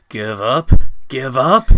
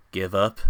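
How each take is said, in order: First: "Give up?" shouted louder each time, climbing up; outraged shout. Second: Said in the usual way. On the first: A narrator's reading. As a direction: fling "Give up?" back with rising fury. Defiant rising outburst.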